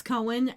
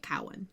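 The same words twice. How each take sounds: First: "Cohen" with a long O, KOH-in; correct pronunciation. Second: "Cowan" with an ow sound, KOW-un; mistaken pronunciation. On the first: Correcting the co-host's name slip, "Cohen" as KOH-in. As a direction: say "Cohen" like co plus hen, softened to KOH-in. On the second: Admitting the tempting misreading, "Cowan" as KOW-un. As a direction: say "Cowan" starting like cow. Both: Shown as a demonstration. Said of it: "I always wanna say it Cowan".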